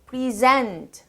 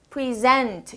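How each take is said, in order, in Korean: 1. 동사처럼 강세를 받아요. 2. 동사처럼 강세를 받아요.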